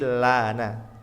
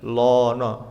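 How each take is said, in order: First: The vowels are thin and sound like 'a'. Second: The vowels are heavy and sound like 'o'. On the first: The speaker calls it right. "tapi lana" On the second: The speaker calls it wrong. "kita nggak boleh membacanya lono"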